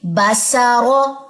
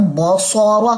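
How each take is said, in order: First: बसरो said very slowly with a thin, light ba; correct light reading. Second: बसरो with a thick, full ba like bosora; wrong heavy reading. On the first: Teacher giving the correct fine reading of the word. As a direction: keep the ba of बसरो light and slow. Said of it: "बा को आपने बारीक रखना है". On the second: Teacher demonstrating the wrong heavy sound. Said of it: "अगर मैं इसको ऐसे पढ़ूं". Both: Shown as a demonstration.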